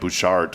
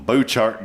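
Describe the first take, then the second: First: The name is said with a standard pronunciation. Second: The name is said with a Texan pronunciation. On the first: This is how it is properly pronounced. "I'm sure it's pronounced like Bouchard or something" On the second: This is how locals from Texas say it. "if you're from Texas, it's the Bouchard Gardens"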